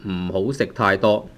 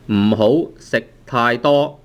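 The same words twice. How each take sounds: First: Said in the usual way. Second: 唔好食太多 spoken slowly, word by word; slow model sentence. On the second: Shown as a demonstration. Teacher modelling 唔好食太多 for learners, slowly. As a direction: lay out 唔好食太多 slowly so it can be copied.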